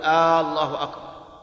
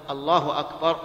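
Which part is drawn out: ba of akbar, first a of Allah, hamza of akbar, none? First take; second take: first a; none. First: The opening vowel of Allah is drawn out. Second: No vowel is lengthened beyond normal. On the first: The speaker calls it wrong. "ولا يجوز أن يمد الهمزة فيقول" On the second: The speaker calls it right. "ولا بد أن تكون بهذا اللفظ الله أكبر"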